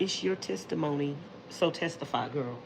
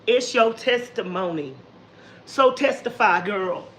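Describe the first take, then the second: First: It is said plainly, without attitude. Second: It is said with sassy attitude.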